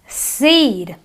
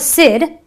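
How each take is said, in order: First: The vowel is long and stretched. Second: The vowel is short and clipped. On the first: The speaker calls it right. "It is a long E. The E is almost elongated" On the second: The speaker calls it wrong. "not a sid"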